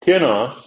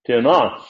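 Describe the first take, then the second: First: "Tinos" with the accent on TI; "Tinos" said TI-nos, falling away on the ending; stress on first syllable. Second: "tinos" with the accent on NOS; "tinos" said ti-NOS, weight on the ending; stress on last syllable. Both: Shown as a demonstration. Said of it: "I put accent in a different syllable".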